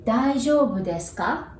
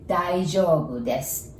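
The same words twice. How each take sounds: First: Daijoubu desu ka with a rising question tune; polite question ending on a rise; asking a question. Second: Daijoubu desu said as a plain answer, no ka; calm statement answering the question. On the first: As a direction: lift the end of ka into a question. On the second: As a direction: state it simply, as a reply. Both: Shown as a demonstration. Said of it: "if you hear ka at the end of the sentence, assume it is a question".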